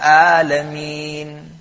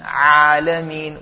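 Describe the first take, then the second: First: The opening sound flows out without throat effort. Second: The opening sound is pressed from the mid-throat. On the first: "as compared to reciting" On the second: "with emphasis"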